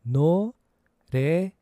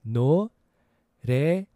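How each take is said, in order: Both takes have the same delivery.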